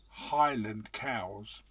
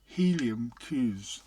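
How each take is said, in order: First: It is said in a plain standard English accent. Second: It is said in a Scottish accent. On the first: "it's Highland cows" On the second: "but in their accent"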